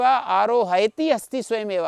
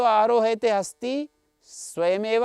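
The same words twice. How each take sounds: First: "आरोहयति" ending in a short -ti; -ति ending shown. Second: "आरोहयते" ending in a long -te, drawn out slowly; -ते ending shown. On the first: Teacher showing students the alternative verb form, "आरोहयति" with final -ति. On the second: Teacher showing students an optional verb form, "आरोहयते" with final -ते. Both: Shown as a demonstration. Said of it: "ऐसा पाता था".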